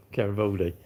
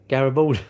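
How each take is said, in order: First: Laughing it out, softer. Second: Said in the usual way. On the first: Real, not acted. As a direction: chuckle as you say Garibaldi.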